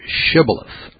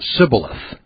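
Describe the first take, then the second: First: The word begins with an sh sound. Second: The word begins with a plain s sound. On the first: The speaker is not from the tribe of Ephraim. The speaker calls it right. "instead of shibboleth" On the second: The speaker belongs to the tribe of Ephraim. The speaker calls it wrong. "they would mistakenly pronounce it sibboleth"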